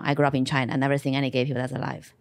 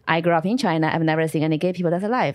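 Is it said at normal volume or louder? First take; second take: normal; louder. First: It is said at normal volume. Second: It is said noticeably louder.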